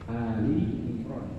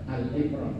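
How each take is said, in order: First: The first word is said with two syllables. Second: The first word is said with one syllable. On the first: It means the family of Imran. The speaker calls it right. "menyebutnya Ali Imran, keluarga Imran" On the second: It means Imran himself. The speaker calls it wrong. "jangan Al Imran"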